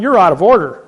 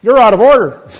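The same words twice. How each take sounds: First: Louder and higher, objecting at the judge; retold outburst from the witness stand; retold shout. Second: Much louder, much higher, the judge's rebuke; the judge fires back even louder; judge's shout. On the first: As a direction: call out the judge loudly in court. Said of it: "I'm going". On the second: Retold or imitated. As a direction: judge topping the witness, loud and high. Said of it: "Then the judge perks up and says".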